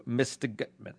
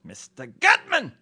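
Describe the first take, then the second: First: Said in the usual way. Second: Much higher, slow exclaimed title; echoing the listener's formal name for him; mock formal address. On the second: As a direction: cry the name out slow and grand.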